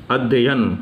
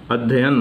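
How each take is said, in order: First: The middle 'y' sound is held doubled. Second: The middle 'y' sound is held doubled.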